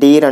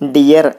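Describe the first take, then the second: First: The vowel is one long 'ee' sound. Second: The vowel glides through two sounds, 'di-yar'. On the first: The speaker calls it wrong. "కానీ చాలామంది డీర్ అంటూ ఉంటారు" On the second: The speaker calls it right. "యాక్చువల్గా దీని pronunciation డియర్ అని ఉంటుందండి. డియర్ అనాలి"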